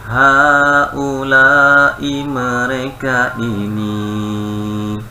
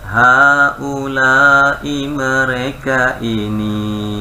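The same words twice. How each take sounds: Both takes have the same delivery.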